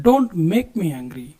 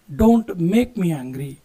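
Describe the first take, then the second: First: Very slow and deliberate; slow model phrase. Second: Slow repeat. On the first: Teacher modelling the English warning for students, slowly. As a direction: give it slowly so learners can follow. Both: Shown as a demonstration. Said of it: "ನನಗೆ ಸಿಟ್ಟು ತರಿಸ್ಬೇಡ".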